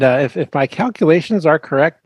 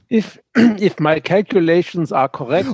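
First: It is said in the speaker's ordinary accent. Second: It is said in a put-on German accent.

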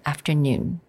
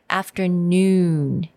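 First: The oo vowel is relaxed and less rounded. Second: The oo vowel is strongly rounded. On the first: "比较美式发音的时候，我们因为比较轻松一点" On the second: "那个oo sound"

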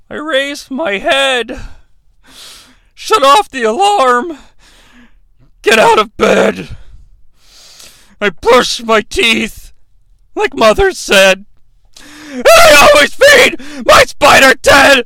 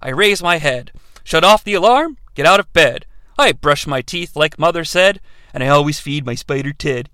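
First: It is read in a Mankind impression. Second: It is read in a plain voice.

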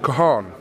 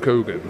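First: The name is said with no hard g sound. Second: The name is said with a hard middle g. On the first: This is how the family says the name. The speaker calls it right. "the actual pronunciation of it" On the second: This is how most people say the name. The speaker calls it wrong. "my mother doesn't pronounce my name Coogan"

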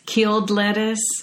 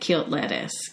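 First: The word is said with a clear final d. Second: The word is said Southern style, like kilt.

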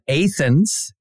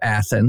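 First: It uses the local Kentucky pronunciation. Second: It uses the standard, widely known pronunciation. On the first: It names the small local town. "we had Athens" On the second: It names the famous city. "instead of Athens"

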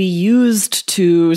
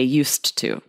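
First: It is slow, with the D sound pronounced. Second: It is quick, with the D merged into T. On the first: The speaker calls it wrong. "if you slow down and say" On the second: The speaker calls it right. "You just say used to"

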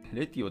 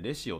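First: The middle consonant is a 't' sound. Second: The middle consonant is a 'sh' sound. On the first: The speaker calls it wrong. "レティオでなくて" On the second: The speaker calls it right. "レシオって発音するらしいですね"

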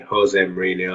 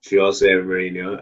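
First: The name is said in a common anglicized way. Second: The name is said in its native way. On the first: This is how people usually say the name. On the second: This is how the man himself says his name.

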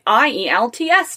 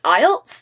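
First: It is spelled out letter by letter. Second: It is said as a single word. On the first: The speaker calls it wrong. "I've been spelling it out all the time" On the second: The speaker calls it right. "is it just IELTS? That's so much easier"

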